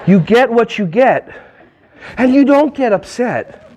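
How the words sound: It is said slowly in a calm, serene tone. The adult is patient with the child. "take a breath, and say, my child"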